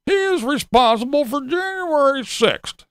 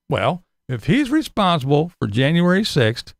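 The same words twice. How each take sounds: First: Pitched higher, sneering voter voice; mock quote of the TV claim; mocking a TV Trump voter. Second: Said in the usual way. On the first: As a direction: parrot the pundit line with scorn. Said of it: "I hear all this shit on the T V".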